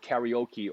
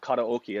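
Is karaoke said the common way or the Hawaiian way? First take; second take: common; Hawaiian. First: The word is said in the common way. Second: The word is said in the Hawaiian way.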